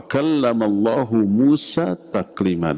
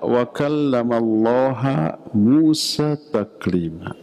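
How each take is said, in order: First: Allah ends with an 'u' vowel, 'Allahu'. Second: Allah ends with an 'a' vowel, 'Allaha'. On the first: God is the one who speaks to Moses. The speaker calls it right. "maka dibaca wa kallamallahu" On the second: Moses is the one who speaks to God. The speaker calls it wrong. "Allahnya dibaca ha"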